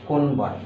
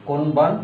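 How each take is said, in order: Both takes have the same delivery.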